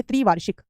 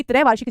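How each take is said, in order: First: त्रिवार्षिक with "tri" at the start; correct form. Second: त्रैवार्षिक with "trai" at the start; wrong form. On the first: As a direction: say त्रिवार्षिक as "tri-vaar-shik". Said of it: "शब्द होता है त्रिवार्षिक". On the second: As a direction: say त्रैवार्षिक as "trai-vaar-shik". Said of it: "त्रैवार्षिक जैसा कोई शब्द नहीं है". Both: Shown as a demonstration.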